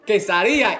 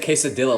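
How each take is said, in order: First: It is said with a Spanish accent. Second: It is said with an American English accent. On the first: It copies the way people from that country say it. "if they pronounce it quesadilla y carne, I'm gonna say" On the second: It is the usual way English speakers order it.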